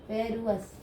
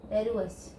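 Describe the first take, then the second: Both takes have the same delivery.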